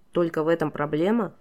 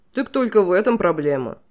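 First: Said in the usual way. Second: Louder, offhand king voice; king shrugs off the deaths cheerfully; breezy dismissal. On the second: A narrator's reading. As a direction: brush off her grief lightly. King brightly dismisses her grief.

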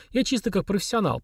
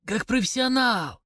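First: Said in the usual way. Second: Slow, higher mock repeat; the major sneering at the drunk's claim; sinister mocking echo. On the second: A narrator's reading. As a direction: throw his word back menacingly. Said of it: "зловеще процедил Дудуев".

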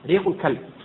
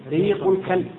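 The two takes are said the same way.

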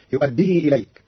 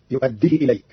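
First: Said in the usual way. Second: "يؤديه" ending in a clipped short hi, no lengthened ya; يؤديه بحذف ياء الصلة; short final hi. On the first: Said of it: "قرأ قالون كلمة". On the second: Shown as a demonstration. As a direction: cut the vowel after the ha in "يؤديه". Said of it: "بحذف ياء الصلة فتصير".

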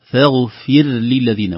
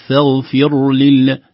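First: "فاغفر للذين" chanted slowly, clear kasra on fa; slow chant with a thin ra in "فاغفر"; correct pronunciation. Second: "فاغفر" with the fa swallowed; wrong pronunciation. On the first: Teacher models the corrected phrase. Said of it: "وأيضًا انتباه لكسرة الفاء". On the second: Teacher shows the error, chanted. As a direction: blur the fa in "فاغفر". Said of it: "وليست". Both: Shown as a demonstration.

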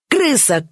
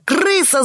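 First: A high yelp of Крыса!; Крыса! yelped high, falling; yell. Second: Shrieking yell. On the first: (Джон вопит Крыса!, высоко и резко) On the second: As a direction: scream Крыса! at the top of the voice, falling. (Джон визжит Крыса! ещё выше и громче) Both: A narrator's reading. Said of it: "завопил Джон".

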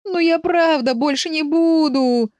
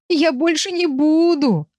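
First: High, slow whine; whimpering. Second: High, drawn-out wailing plea. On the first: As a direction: whine a drawn-out, pleading promise. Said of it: "и проскулил". (жалобно скуля) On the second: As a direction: cry out a desperate promise. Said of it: "вопил Виль". (вопя, умоляюще) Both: A narrator's reading.

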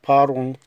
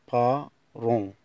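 First: بارون said quick and louder, ba-RON; quick loud model. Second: بارون drawn out slowly, ba-RON, no final n; slow syllable model. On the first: Teacher repeats baron at full speed, louder. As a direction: snap out بارون at normal speed. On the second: Teacher shows the silent ending of baron, slowly. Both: Shown as a demonstration. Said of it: "تي والإس لا تنطق".

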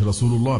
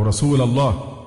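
First: رسول الله with u after the lam, rasulu; nominative damma. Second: Slow رسول الله with -a ending on rasula; faulty accusative vowel. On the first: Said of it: "بالرفع". (ضم لام «رسول») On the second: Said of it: "أصبحت يا رسول الله". (فتح لام «رسول») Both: Shown as a demonstration.

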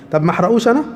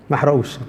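First: طب ما أحرقوش أنا؟ asked with a rising tune on أنا; musing question, voice rising on أنا; questioning rise. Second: ما أحرقوش said low with a falling, final tune; lower, conclusive statement; settled answer. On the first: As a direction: pose it as a real question, lifting at the end. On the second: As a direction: answer your own question firmly, dropping at the end. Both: Shown as a demonstration.

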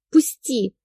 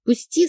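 First: Hissed. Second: Sharp, high barked command. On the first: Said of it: "зашипела". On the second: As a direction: bark Пусти! high and hard. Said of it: "рявкнула". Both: A narrator's reading.

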